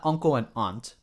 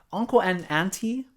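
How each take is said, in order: First: "aunt" clipped to one syllable, "ahnt"; mainland usage. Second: "auntie" said with the ending, "ahn-tee"; Hawaii usage. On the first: Contrasting mainland terms for viewers, plain "aunt". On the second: Explaining Hawaii terms to mainland viewers, "auntie" said in full. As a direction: stress "uncle" and say "auntie" the island way. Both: Shown as a demonstration. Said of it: "not uncle and aunt".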